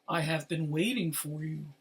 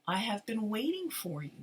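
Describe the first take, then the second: First: It is said in a deep voice. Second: It is said in a normal voice.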